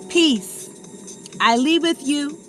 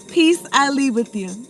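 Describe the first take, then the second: First: There is a break after 'Peace'. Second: It flows on without a break after 'Peace'.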